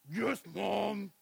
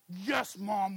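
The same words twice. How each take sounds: First: It is said in an angry growl. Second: It is said sweetly, with a smile.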